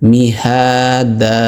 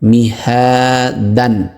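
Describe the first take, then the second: First: The word ends with a lengthened a, no n. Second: The word ends with a short a and n. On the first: The reciter pauses at the end of the word. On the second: The reciter continues without pausing.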